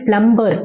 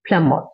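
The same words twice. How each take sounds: First: A b sound is heard in the middle. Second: No b sound is heard in the middle. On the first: The speaker calls it wrong. "பிளம்பர் அப்படி சொல்லுவோம்" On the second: The speaker calls it right. "அதுலேயும் பி pronounce பண்ணக்கூடாது"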